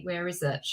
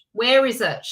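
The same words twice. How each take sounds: First: Soft, low mutter to herself; muttered search. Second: A touch louder, impatient repeat. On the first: Host hunts for the link, muttering quietly. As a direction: search under your breath. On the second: Host, frustrated, searches louder for the link. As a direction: ask it again with more push. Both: Real, not acted.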